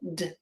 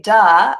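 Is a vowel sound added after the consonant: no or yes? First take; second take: no; yes. First: The consonant is clipped with no added vowel. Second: The consonant ends with an added uh vowel. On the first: The speaker calls it right. "I say d" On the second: The speaker calls it wrong. "I don't say duh"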